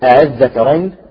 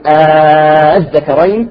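First: The opening hamza is softened, between hamza and alif. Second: The opening vowel is drawn out very long. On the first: "ولها وجه آخر بالتسهيل" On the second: "تبدل همزة وصل ألف مدية ست حركات"

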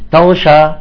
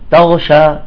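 First: The second consonant is a voiced gh. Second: The same.

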